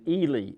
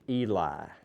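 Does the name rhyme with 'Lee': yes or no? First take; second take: yes; no. First: The name ends rhyming with 'Lee'. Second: The name ends not rhyming with 'Lee'. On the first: This is how the bearer of the name says it. "He pronounces it Ely, like Robert E. Lee" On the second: This is how the name would be said with another spelling. "if it was E L I, it would be pronounced Eli"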